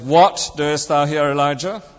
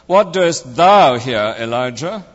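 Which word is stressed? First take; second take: what; thou. First: The stress is on the word what. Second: The stress is on the word thou. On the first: "emphasizing each word in turn" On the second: "emphasizing each word in turn"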